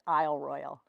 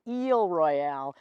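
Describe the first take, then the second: First: It is said the American way. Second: It is said the French way.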